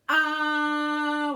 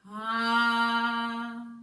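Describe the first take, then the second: First: It starts with a sharp catch in the throat. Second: It starts softly with breath before the vowel. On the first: "where you can feel that that action here in your throat" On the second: "I think a little air has to come out first"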